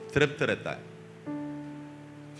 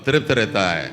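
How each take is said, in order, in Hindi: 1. यह सामान्य, धीमी आवाज़ में बोला जाता है। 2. यह काफ़ी ज़ोर से और ज़्यादा बल देकर बोला जाता है।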